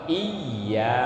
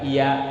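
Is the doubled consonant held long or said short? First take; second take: held long; short. First: The doubled consonant is held long. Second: The doubled consonant is said short. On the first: The speaker calls it right. "bacaannya harus ditahan" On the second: The speaker calls it wrong.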